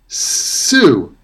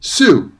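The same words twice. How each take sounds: First: The first sound is stretched out long. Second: The first sound is short and ordinary. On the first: "I'm making the sounds longer than they usually are" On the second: "what those words sound like in everyday pronunciation"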